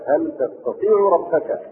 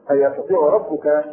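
First: تستطيع with ta- and ربك as object, slow; reading with ta. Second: يستطيع ربك with ya-, ربك as subject; reading with ya. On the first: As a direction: slowly say تستطيع ربك, tastatiʿ rabbaka. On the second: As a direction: read يستطيع with the ya prefix. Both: Shown as a demonstration. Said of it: "وفي قراءة بالفوقانية".

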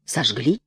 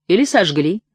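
First: Low, musing question; thoughtful echo. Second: Said in the usual way. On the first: A narrator's reading. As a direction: repeat it pensively, pitched down with a rising end. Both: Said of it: "задумчиво повторил господин Назария".

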